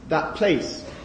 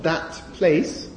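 First: The final consonant of 'that' takes the next sound's place. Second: The final consonant of 'that' stays distinct. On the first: "place of articulation assimilation" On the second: "it's not that place"

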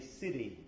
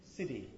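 First: The middle t is a quick tap. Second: The middle t is a quick tap.

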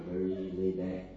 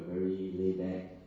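No difference in how they are said.

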